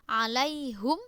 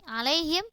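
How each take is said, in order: First: The last syllable has a u vowel. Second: The last syllable has an i vowel. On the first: This is one reader's variant reading. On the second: This is the common reading.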